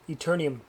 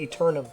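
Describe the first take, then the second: First: An extra 'ee' sound comes before the ending. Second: The word ends in 'um' with no 'ee'. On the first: The speaker calls it wrong. "I should be able to pronounce this game right eventually" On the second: The speaker calls it right. "There's no I in it"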